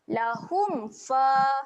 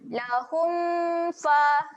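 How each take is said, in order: First: The m sound is kept short. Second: The m sound is held long. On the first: The speaker calls it right. "pendekkan saja bunyi mim mati ni" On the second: The speaker calls it wrong. "macam tu salah eh"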